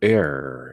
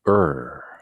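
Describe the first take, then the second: First: It is said with an American pronunciation. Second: It is said with a simplified Korean-style pronunciation. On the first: "미국식으로는 to err 이렇게 발음하기도 하고" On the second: "그저 우리는 쉽게 er 이렇게 발음하는 것이 쉽죠"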